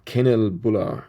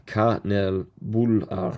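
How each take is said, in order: First: "Kinnerbullar," read as KIN-ner-bullar, a rough anglicised guess; first try at pronunciation. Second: "Kanelbullar," slowly, ka-NEL-bul-lar, careful Swedish try; corrected pronunciation. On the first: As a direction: say "Kinnerbullar," as an English reader's first attempt. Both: Real, not acted. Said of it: "emphasis on the third syllable".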